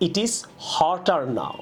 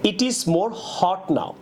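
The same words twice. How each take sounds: First: Slow demo of right sentence. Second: Slow demo of wrong sentence. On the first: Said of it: "বলতে পারি আমরা". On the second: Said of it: "এটা না বলে". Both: Shown as a demonstration.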